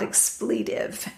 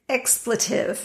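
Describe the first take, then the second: First: The stress is on the second syllable. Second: The stress is on the first syllable. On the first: The speaker calls it wrong. "not expletive. Emphasis on the wrong syllable" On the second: The speaker calls it right. "It's expletive"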